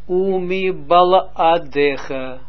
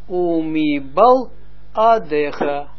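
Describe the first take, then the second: First: The word is said smoothly in one piece. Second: The word is broken into parts with short pauses.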